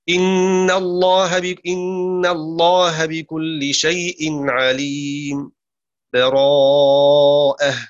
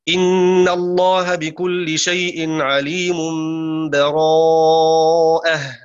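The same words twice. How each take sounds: First: A brief silent break without breath precedes the last word. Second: The words run on with no break before the last. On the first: "السكت من دون تنفس" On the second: "هذا وصل"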